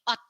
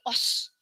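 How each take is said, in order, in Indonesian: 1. Kata ini berakhir dengan bunyi t. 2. Kata ini berakhir dengan bunyi s. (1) "tapi ot, artinya baju" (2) "udah bukan dibaca lagi jadi os"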